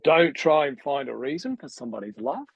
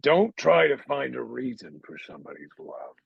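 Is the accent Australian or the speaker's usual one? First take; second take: Australian; usual. First: It is said in an Australian-sounding accent. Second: It is said in the speaker's usual accent.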